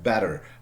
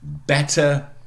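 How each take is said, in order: First: It is said in an American accent. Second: It is said in a non-American accent.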